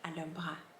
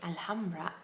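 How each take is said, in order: First: The middle H sound is silent. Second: The middle H sound is pronounced. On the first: The speaker calls it right. "that H sound in the middle was actually si- silent" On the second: The speaker calls it wrong. "I used to say Alhambra"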